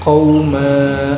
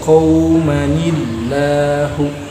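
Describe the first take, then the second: First: The word stops on a long final vowel. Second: A short vowel and -ni link into the next word. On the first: The reader pauses on this word. "dibaca wakof berarti qauma, mimnya berharokat jadi panjang" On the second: The word is joined to the next word. "diwasl qaumanillahu, mimnya berharokat pendek"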